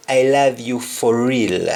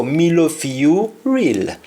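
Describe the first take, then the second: First: Said in the usual way. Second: "Me love fi you real" in a Jamaican Patois lilt; a Patois line of devotion. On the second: Shown as a demonstration. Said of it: "we say".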